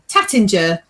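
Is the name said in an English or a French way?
English. The name is said with English pronunciation. This is how many people say it. "what a lot of people call"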